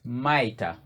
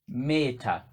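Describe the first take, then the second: First: The first syllable is said as 'ma'. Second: The first syllable is said as 'me'. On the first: The speaker calls it right. "but it's Maita" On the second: The speaker calls it wrong. "commonly pronounced as Meta"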